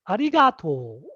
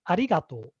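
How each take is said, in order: First: It has the Nagoya regional pitch pattern. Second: It has the standard Tokyo pitch pattern. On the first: "in Nagoya, people say ari arigato" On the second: "the correct intonation is arigato"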